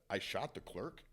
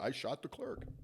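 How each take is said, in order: First: It rises at the end, as a question. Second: It falls at the end, as a statement.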